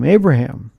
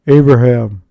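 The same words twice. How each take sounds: First: The name is said in a plain reading voice. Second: The name is said in a dramatic movie voice.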